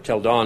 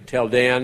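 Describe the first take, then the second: First: It is said with an Israeli Hebrew pronunciation. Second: It is said with an English pronunciation.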